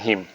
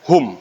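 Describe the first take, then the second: First: The syllable has a front i vowel. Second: The syllable has a rounded u vowel. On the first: This is how the other reciters read it. "bukan him" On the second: This is how one group of reciters reads it. "Itu mereka baca dengan hum"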